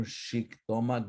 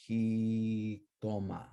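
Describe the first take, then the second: First: Xictomat as shik-TO-mat; old SH sound. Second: Jictoma as hee-TO-ma, J breathed like h; slow Jictoma with an h onset; new J sound. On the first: Teacher shows class the older form, SH sound. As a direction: open Xictomat on a clear sh. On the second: Teacher shows class the changed form, J sound. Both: Shown as a demonstration. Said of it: "from an S H to a J".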